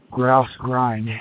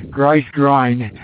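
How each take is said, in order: First: Said in the usual way. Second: "grice grind" with a short "ice" vowel instead of "grouse"; mispronounced, tongue-tied. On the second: Real, not acted. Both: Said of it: "Can't talk at high altitude".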